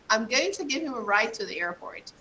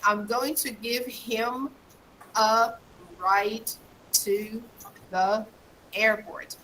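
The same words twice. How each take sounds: First: The words are linked smoothly into each other. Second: Each word is said separately, broken apart. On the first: The speaker calls it right. "I connect" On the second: The speaker calls it wrong. "Instead of saying, ... Instead of breaking up everything"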